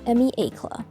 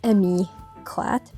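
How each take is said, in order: First: The name ends without any T sound. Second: The name ends with a clear T sound. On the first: The speaker calls it right. "You're not supposed to pronounce the T" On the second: The speaker calls it wrong. "that's not how you pronounce it"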